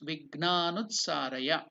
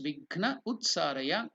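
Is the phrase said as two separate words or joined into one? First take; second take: joined; separate. First: The two words are merged into one word. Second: The two words are said apart, unjoined. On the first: "Combined, it becomes" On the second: "When it is separated"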